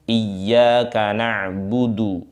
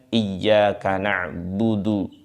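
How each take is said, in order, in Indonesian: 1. Vokalnya terbentuk penuh dan jelas. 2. Vokalnya terbentuk longgar dan lemah. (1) "dhammahnya harus sempurna, fathahnya harus sempurna" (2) "Tidak cukup dengan"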